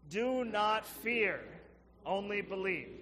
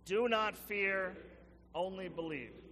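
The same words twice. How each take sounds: First: It is said louder and with more force. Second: It is said with ordinary, moderate force. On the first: The speaker calls it right. "I think we can say it stronger than that" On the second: The speaker calls it wrong. "Can you say it with me?"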